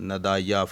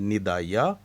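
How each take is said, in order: First: The first vowel sounds like 'a'. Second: The first vowel sounds like 'i'. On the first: The speaker calls it wrong. "नदाया फजाया या इस्तेजाबिया नहीं" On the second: The speaker calls it right. "नीचे ज़ेर है नून के नीचे"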